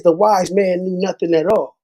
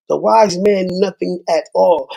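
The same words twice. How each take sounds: First: Said in the usual way. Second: Repeats "The wise man knew nothing at all" slower, each word landing; slow, weighty repeat. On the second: Shown as a demonstration. To YouTube viewers, quoting the wise man, slow and weighty. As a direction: lean on every word like a proverb.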